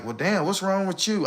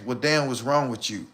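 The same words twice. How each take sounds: First: Lightly mimicking a confused woman; half-hearted imitation of her asking; mock puzzled question. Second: Softly mimicking a puzzled woman; a hushed, put-upon what's wrong with you; quietly mimicked question. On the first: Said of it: "be blindsided like". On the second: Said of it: "wanna ask".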